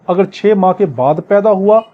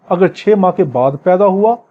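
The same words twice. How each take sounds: The two takes are said the same way.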